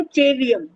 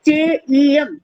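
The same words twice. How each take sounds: First: चेवीयम with a v sound, che-vee-yam; चेवीयम read with v, as many children do; wrong reading. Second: चेईयम with no v, che-ee-yam; चेईयम, the pure form, no v; correct reading. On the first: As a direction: say चेवीयम the common wrong way, with a clear v. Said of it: "बहुत से लोग पढ़ते हैं". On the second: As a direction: say चेईयम cleanly as che-ee-yam, no v between the vowels. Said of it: "शुद्ध शब्द क्या है". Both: Shown as a demonstration.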